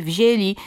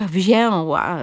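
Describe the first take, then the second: First: WZIĘLI with plain oral e, as wzieli; careful oral vowel. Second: WZIĘŁA slow, with a full nasal ę before ł; overliteral nasal ę. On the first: Linguist shows the model form, oral e in "wzięli". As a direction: drop the nasality in "wzięli". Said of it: "jako samogłoski ustne". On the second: Linguist demonstrates the error, slow nasal ę in "wzięła". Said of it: "nadmiernie literowa wymowa". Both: Shown as a demonstration.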